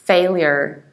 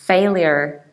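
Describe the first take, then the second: First: It is said in an American accent. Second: The same.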